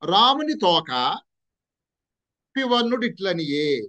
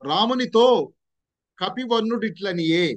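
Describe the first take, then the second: First: The break comes right after 'Ramuni'. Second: The break comes right after 'Ramunito'. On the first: The meaning changes to Rama's tail speaking. The speaker calls it wrong. "కొంతమంది ఎలా చదివారంటే దాన్ని" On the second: The monkey-hued one spoke to Rama. The speaker calls it right. "ఎక్కడ మనం pause ఇవ్వాలి, రామునితో అని"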